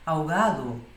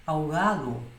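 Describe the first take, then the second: The two takes are said the same way.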